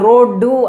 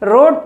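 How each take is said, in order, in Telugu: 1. ఈ పదం చివర అదనంగా ఒక అచ్చు శబ్దం కలుస్తుంది. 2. ఈ పదం హల్లు శబ్దంతో ముగుస్తుంది. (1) "మన వాళ్ళు రోడ్డు అని పలుకుతూ ఉంటారు" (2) "రోడ్ అనేటువంటి పదం ఉందనుకోండి"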